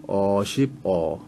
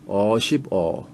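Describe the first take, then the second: The two takes are said the same way.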